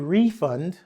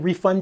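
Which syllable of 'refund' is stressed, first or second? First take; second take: first; second. First: The stress is on the first syllable. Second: The stress is on the second syllable. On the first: It is used as a noun. "is at the beginning of the word when it comes to nouns" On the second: It is used as a verb. "when it comes to the verb, we tend to emphasize the latter part"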